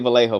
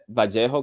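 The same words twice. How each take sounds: First: The name is pronounced with English sounds. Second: The name is pronounced with Spanish sounds. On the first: "I'm gonna say Vallejo for this video" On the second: "That's how you say it in Spanish"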